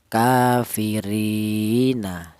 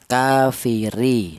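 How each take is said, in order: First: The vowel after the r is long, two beats. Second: The vowel after the r is short, one beat. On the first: "maka dipanjangkan dua ketukan" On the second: "dibaca pendek yaitu satu harokat atau satu ketukan"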